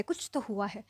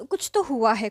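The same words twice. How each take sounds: First: "कुछ तो हुआ है" repeated much softer, fading away; softer mock echo; trailing off. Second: Mock pushy "कुछ तो हुआ है" pressed a little louder; hammed-up prying; insistent know-it-all. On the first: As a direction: let the insistence die out quietly. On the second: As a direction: imitate him insisting he knows. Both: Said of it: "अंतर्यामी बन रहा था".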